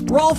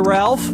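First: It is said with an 'o' vowel and an l. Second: It is said with an 'al' vowel and an l. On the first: "Rolf has to Ralph" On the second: "Ralph has to Ralph"

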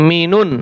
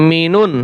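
Both takes have the same delivery.

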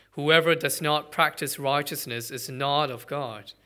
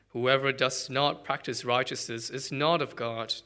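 Both takes have the same delivery.

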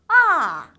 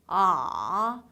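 First: The pitch slides sharply down from high. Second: The pitch dips down, then bounces slightly up. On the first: "떨어지는 음이에요. 쭉 미끄러져야 돼요" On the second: "내려가는 느낌만 좀 강하게 주신다고"

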